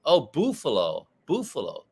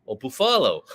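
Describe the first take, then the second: First: "buffalo" with an oo in the first syllable; Mexican friend's pronunciation. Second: "buffalo" stressed on a long middle AH, rhyming with Ruffalo; Mexican friend's pronunciation. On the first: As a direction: say "buffalo" as BOO-fa-lo. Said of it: "the way my Mexican friend says". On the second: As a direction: say "buffalo" as boo-FAH-lo. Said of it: "like Mark Ruffalo". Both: Retold or imitated.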